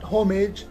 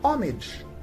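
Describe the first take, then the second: First: The word begins with an audible H sound. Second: The word begins directly with a vowel sound. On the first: The speaker calls it wrong. "not homage" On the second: The speaker calls it right. "but homage. H is silent"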